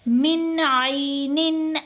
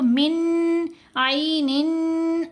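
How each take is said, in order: First: The n sound is clear and kept short. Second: The n sound is nasalized and held long. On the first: The speaker calls it right. "जब इजहार होगा तो फिर ये गुन्ना नहीं होगा" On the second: The speaker calls it wrong. "ऐसे नहीं करना, ये जो निन की आवाज़ को हम लंबा कर रहे हैं ये गलत है"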